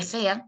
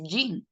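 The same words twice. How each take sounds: First: JEAN as "je-an", with a jota; wrong-way demo, jean read "jeán"; Spanish spelling reading. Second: JEAN as "yin", one drawn-out vowel; jean slowly, pronounced "yiin"; English pronunciation. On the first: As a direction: say jean with both vowels and a breathy Spanish J. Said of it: "Y en vez de". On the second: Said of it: "usted dice jean". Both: Shown as a demonstration.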